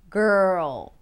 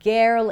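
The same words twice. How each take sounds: First: The consonant moves straight into the R. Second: A distinct vowel is sounded before the R. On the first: The speaker calls it right. "It's gr, gr, girl" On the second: The speaker calls it wrong. "It's not girl"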